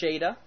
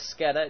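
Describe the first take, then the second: First: The name begins with an 'sh' sound. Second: The name begins with an 'sk' sound. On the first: The speaker calls it right. "It's Shada" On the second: The speaker calls it wrong. "who I mispronounced last week as Sketa"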